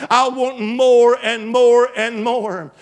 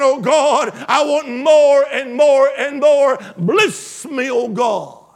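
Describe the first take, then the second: First: Drawn-out, pleading "more and more and more"; longing plea, each "more" slow and heavier; slow pleading cry. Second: Loud, fervent cry of "more and more and more"; preacher shouting the people's plea for blessing; shouted plea. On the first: Congregation's cry voiced by preacher. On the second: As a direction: cry it out to God at full voice. Congregation's cry acted out, shouted. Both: Acted.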